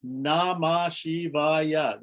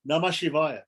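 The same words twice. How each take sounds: First: Namah Shivaya drawn out very slowly, each syllable separated. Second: Said in the usual way. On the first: Shown as a demonstration. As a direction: count out Na-ma-Shi-va-ya by stretching every syllable. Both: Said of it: "That's five syllables".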